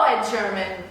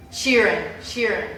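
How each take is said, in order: First: "[name]" botched as "Sherman"; mispronounced surname. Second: "[name]" as SHEER-in, without an M; corrected surname. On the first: Fan stumbling over favourite singer's surname, "[name]" said as "Sherman". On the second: Fan correcting their own slip, "[name]" said SHEER-in. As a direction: repeat "[name]" carefully as SHEER-in. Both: Real, not acted. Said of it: "I don't even know his last name".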